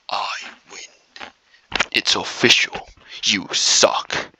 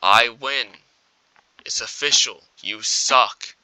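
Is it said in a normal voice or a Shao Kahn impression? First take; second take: Shao Kahn; normal voice. First: It is said in a Shao Kahn impression. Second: It is said in his normal voice.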